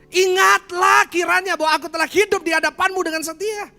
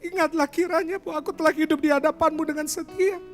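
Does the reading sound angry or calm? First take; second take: angry; calm. First: It is read in an angry, reproachful tone. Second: It is read in a calm, pleading tone. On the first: "Kalau Hizkia marah sama Tuhan, nadanya kayak gini" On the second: "versi yang kedua"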